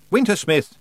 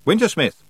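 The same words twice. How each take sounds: First: Loud, high call of the name; calling the Wintersmith's name once more; calling out again. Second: Loud, high call into the empty palace; calling the Wintersmith's name aloud. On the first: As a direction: shout for him across the ice. Tiffany calls out again. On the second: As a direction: shout his name to the ice. Tiffany calls out to him. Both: Acted.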